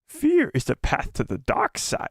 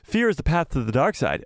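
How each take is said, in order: First: It is said in a Yoda impression voice. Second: It is said in his normal voice.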